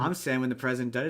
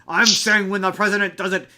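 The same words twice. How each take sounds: First: It is delivered in a calmer, plainer way. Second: It is delivered in an exaggerated, dramatic way. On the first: This is how it was actually said. The speaker calls it right. "It was more like" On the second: This is how the film portrayed it. The speaker calls it wrong. "that movie makes a lot of what Nixon said seem hyper dramatic"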